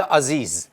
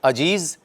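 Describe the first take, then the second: First: अजीज said "azeez", both sounds z; correct pronunciation. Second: अजीज said "ajeez", j then a final z; variant pronunciation. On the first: Trainer shows students the third way, azeez. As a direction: say अजीज with a soft buzzing z twice. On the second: Trainer shows students a second way, ajeez. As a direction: say अजीज with j in the middle, z at the end. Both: Shown as a demonstration. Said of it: "ये दो तीन तरह से ही बोला जा सकता है".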